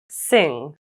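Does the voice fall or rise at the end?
fall. The pitch falls at the end. "with rising and falling intonations"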